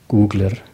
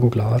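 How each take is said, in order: First: The stress is on the first syllable. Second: The stress is on the last syllable. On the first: "Man betont es weiter vorne" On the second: "auf Valader sagt man auch «googlar»"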